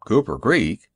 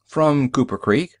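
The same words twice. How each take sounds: First: "Cooper Creek" repeated with a falling end; doubtful echo. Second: "Cooper Creek" lifted at the end; tentative answer. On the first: Driver questions the stranger's answer, "Cooper Creek" falling doubtfully. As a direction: echo "Cooper Creek" back, dropping at the finish. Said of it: "He frowned". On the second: Stranger answers where he is from, "Cooper Creek" rising tentatively. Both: Acted.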